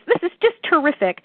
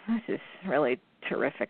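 First: The voice sounds genuinely excited. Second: The voice sounds flat and unenthusiastic.

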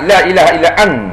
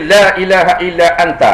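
First: The final syllable 'ta' is dropped. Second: The final syllable 'ta' is clearly pronounced. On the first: The speaker calls it wrong. "Ramai sangat la ilaha illa an" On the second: The speaker calls it right. "tapi kalau doa dia kena berbunyi. Mesti kata la ilaha illa anta"

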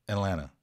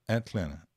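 First: The T sounds are dropped in fast speech. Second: The T sounds are clearly pronounced.

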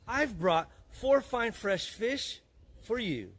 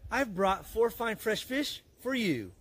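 First: It is said slowly. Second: It is said fast.

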